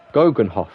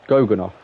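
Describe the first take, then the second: First: Goggenhof as "GOH-gun-hoff"; H pronounced. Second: Goganoff with first vowel "oh" and no H; H dropped. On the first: Gamer corrected by chat, says "Goggenhof" with the H. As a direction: sound a clear H in "Goggenhof.". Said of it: "say with the H". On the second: Gamer offering chat the other option, "Goganoff" without any H. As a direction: say "Goganoff." as "GOH-gun-off". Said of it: "should I not say the H". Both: Shown as a demonstration.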